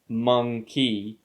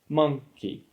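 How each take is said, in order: First: The stress is on the second syllable. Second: The stress is on the first syllable. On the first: The speaker calls it wrong. "So we don't say monkey" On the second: The speaker calls it right. "We put stress on the first syllable and the second one is unstressed"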